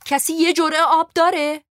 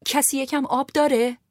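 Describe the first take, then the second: First: Much higher and louder desperate shout; raised voice. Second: Calling out. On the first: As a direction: raise your voice so the whole wagon hears. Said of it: "تون صدایم بالا رفت". (فریاد بلند و مستأصل) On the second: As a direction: call out to everyone for water. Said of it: "صدا زدم". (صدا زدن بلند) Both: A narrator's reading.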